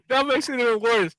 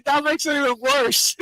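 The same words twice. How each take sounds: First: Said in the usual way. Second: Laughing. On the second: Real, not acted. Laughing at the name story.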